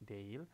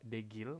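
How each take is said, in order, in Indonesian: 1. Huruf g tidak terdengar dan vokalnya menyatu. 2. Bunyi g keras diucapkan di tengah.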